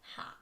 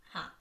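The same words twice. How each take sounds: First: The syllable begins with a breathy h sound. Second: The syllable begins with a breathy h sound.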